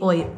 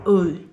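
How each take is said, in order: First: The word starts with an open 'oh' vowel. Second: The word starts with a rounded 'oo' vowel. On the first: The speaker calls it wrong. "Dili oy" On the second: The speaker calls it right. "Dapat naka, uy"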